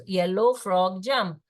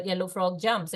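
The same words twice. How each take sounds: First: "yellow frog jump" in slow, stretched words; slow therapy demonstration; slow model phrase. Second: Said in the usual way. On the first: Shown as a demonstration. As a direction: repeat the three words slowly for a child. Repeats slow three-word model.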